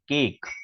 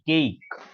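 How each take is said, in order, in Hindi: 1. स्वर छोटा और झटके से बोला जाता है। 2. स्वर लंबा और खींचकर बोला जाता है। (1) "हम लोग क्या बोलते हैं, केक बोलते हैं" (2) "लेकिन केक नहीं, केक"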